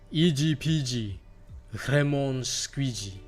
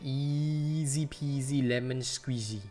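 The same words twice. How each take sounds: First: It is said in a Japanese English accent. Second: It is said in his plain accent.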